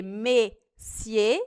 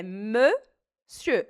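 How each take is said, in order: First: Messier with a flat open e, the mistake to avoid; wrong messier. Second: Monsieur very slowly with a rounded eu. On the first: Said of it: "Ao invés de ser messier". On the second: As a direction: stretch monsieur with round lips. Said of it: "É só arredondar o lábio". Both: Shown as a demonstration.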